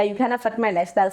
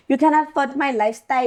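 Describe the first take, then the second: First: Said in the usual way. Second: Stretched, pulled accent on "You can't afford my lifestyle"; drawn-out accent. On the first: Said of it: "I was saying to this guy". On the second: Shown as a demonstration. To the guy, the quote drawled in her accent. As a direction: drag the vowels out in her own accent. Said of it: "ke goga".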